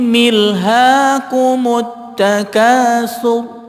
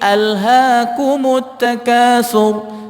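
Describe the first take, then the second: First: The opening glottal stop is dropped and linked. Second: The opening glottal stop is clearly pronounced. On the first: The speaker calls it wrong. "ini adalah bacaan yang salah" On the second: The speaker calls it right. "itu adalah hamzah apabila diwasal atau tidak tetap dibaca"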